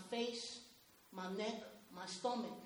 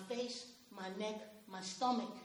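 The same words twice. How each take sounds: The two takes are said the same way.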